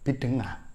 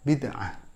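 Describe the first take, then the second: First: The middle consonant is a nasal ng sound. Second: The middle consonant is a throaty ain sound. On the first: "menerapkan ibdalul aini ngainan" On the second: "Misalnya kata bid'ah"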